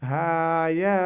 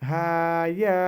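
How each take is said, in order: Both takes have the same delivery.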